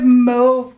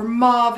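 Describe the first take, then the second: First: "mauve" said as "mohv", rhyming with stove; mauve with long O. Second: "mauve" said as "mawv", with an open vowel. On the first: Describing the final color to viewers, "mauve" pronounced "mohv". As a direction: say "mauve" with the vowel of "go". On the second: Offering viewers the other pronunciation, "mauve" pronounced "mawv". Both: Shown as a demonstration. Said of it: "however you pronounce it".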